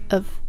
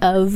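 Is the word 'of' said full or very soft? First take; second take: soft; full. First: The word is said very softly and reduced. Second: The word is said fully and clearly. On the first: The speaker calls it right. "it's a very soft of" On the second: The speaker calls it wrong. "It's not of"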